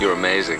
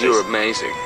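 First: The line is said casually, without much conviction. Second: The line is said earnestly, with conviction.

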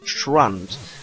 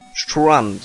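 First: The word is pronounced in a normal way. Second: The word is pronounced in an odd way. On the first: The speaker calls it right. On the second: The speaker calls it wrong.

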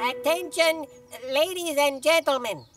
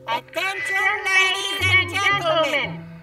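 First: It is said quietly. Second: It is said loudly.

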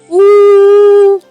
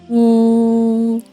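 First: The voice is high in pitch. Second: The voice is low in pitch. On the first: "кричить високим голосом" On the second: "кричить низьким голосом"

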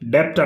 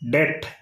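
First: A p sound comes before the final t. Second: The word ends in a plain t sound. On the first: The speaker calls it wrong. "డెప్ట్ అనకూడదు" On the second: The speaker calls it right. "డెట్ అని పలకాలి"

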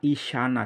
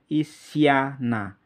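First: The middle is a single sy consonant sound. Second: A bare s is followed by a separate y. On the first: The speaker calls it right. "yang kita inginkan adalah isyana" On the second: The speaker calls it wrong. "I sa dimatikan dengan ya itu bacanya isyana"

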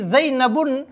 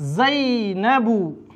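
First: The word ends with an added n sound. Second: The word ends on a plain u vowel. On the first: The speaker calls it wrong. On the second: The speaker calls it right.

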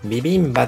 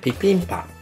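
First: The consonants are voiced b sounds. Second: The consonants are voiceless p sounds. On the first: This is the usual form used in Japan. The speaker calls it wrong. "ビビンバじゃなくて" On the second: This is how it is actually said in Korea. The speaker calls it right. "実際にはピピンパのように発音される"

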